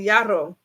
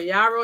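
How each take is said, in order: First: The r sound is rolled with the tongue. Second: The r sound is plain, not rolled.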